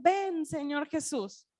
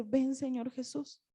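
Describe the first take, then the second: First: Slow, certain plea, falling at the end; sure call. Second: Much softer, slow and unsure; hesitant. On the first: The church calling out to the Lord, slow and sure. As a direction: say "Ven, Señor Jesús" slowly and firmly, the voice dropping on "Jesús". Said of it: "y el espíritu y la novia dicen". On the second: Preacher recalling she could not pray it, hushed and hesitant. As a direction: say "Ven, Señor Jesús" quietly and slowly, rising at the end like a doubt. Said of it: "Y yo no podía decir". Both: Retold or imitated.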